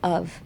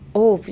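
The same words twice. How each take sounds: First: The vowel sounds like an open U. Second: The vowel sounds like a rounded O. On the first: The speaker calls it right. "O というよりかもU の発音" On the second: The speaker calls it wrong. "of じゃなくて"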